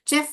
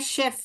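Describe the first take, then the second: First: The word begins with a ch sound. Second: The word begins with a sh sound. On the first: The speaker calls it wrong. "जैसे चेफ बोलते हैं" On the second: The speaker calls it right. "सही pronunciation क्या है, शेफ है"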